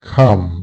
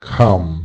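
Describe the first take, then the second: The two takes are said the same way.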